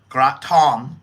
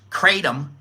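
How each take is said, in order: First: It is said with the local pronunciation. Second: It is said with an American pronunciation.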